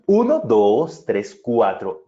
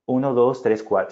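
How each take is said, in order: First: Uno, dos, tres, cuatro said slowly, cuatro drawn out and falling, dos pushed louder; counting with status. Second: Said in the usual way. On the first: Shown as a demonstration. Teacher demonstrating confident counting to the class, slow and weighty. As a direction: give each number weight and authority, slowing down. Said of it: "dándonos cierto estatus". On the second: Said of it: "no es".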